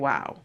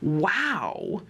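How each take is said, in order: First: It is said in a flat monotone. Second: It is said with lively, expressive intonation.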